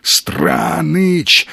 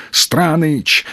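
First: A choked, rasping gasp of a name; hoarse wheeze. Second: Said in the usual way. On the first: A narrator's reading. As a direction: force the name out through a wheezing throat. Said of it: "захрипел он".

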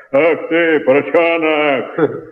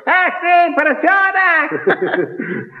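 First: Mock shout, slightly lower and slow; lightly lowered, slowed yell; low-voiced shout. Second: Squeaky high yell, slow and laughing; high-pitched shout. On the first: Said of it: "кричал низким голосом, вот так". (крик низким голосом) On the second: Retold or imitated. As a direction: shriek it way up high, drawn out. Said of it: "кричал высоким голосом". (крик высоким голосом)

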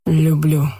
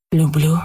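First: More confident. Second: Surprised whisper. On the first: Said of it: "повторил он увереннее". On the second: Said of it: "удивлённо прошептал Марк". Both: A narrator's reading.

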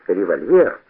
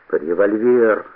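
First: Револьвер as a question, rising at the end; questioning echo. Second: Drawn-out, understated moan on Револьвер.

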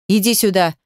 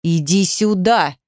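First: Restrained shouted order; firm, contained call; shouted command. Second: Slow, controlled menace; slow, restrained threatening command; quietly threatening. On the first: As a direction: order her over, mildly raised voice. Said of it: "крикнул он". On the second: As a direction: draw out the order as a threat. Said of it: "угрожающе тихо". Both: A narrator's reading.

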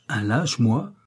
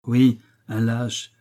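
First: Mildly indignant, rising question. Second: "Oui, un lâche" slow, each part set apart; deliberate insult. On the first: Husband bristles at captive's insult, mild indignation. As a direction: throw "lâche" back as an affronted question. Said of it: "je bondis à ce mot de lâche". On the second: Captive confirms insult to husband, slow deliberate stress on "lâche". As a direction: lay down "un lâche" slowly as a confirmation. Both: A narrator's reading.

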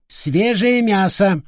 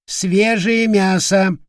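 First: High, slow drawn-out parrot squawk; parrot cry. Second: High, slow parrot squawk on «свежее»; parrot cry. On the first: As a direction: stretch it out like a hungry bird. Parrot screeching at visitor. (протяжный птичий крик) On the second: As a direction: drag «Свежее мясо» out slowly, high and birdlike. (медленный высокий крик попугая «Свежее мясо») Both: Acted.

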